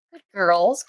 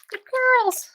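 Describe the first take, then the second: First: Said in the usual way. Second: Squeaky puppy praise. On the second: Real, not acted. Praising puppies, jumps high.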